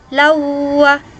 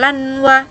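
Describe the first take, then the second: First: The n merges fully into the following w. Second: A distinct n is pronounced before the w. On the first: The speaker calls it right. "Jadi ini masuk ya ke dalam wawunya" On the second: The speaker calls it wrong. "bukan lanwa"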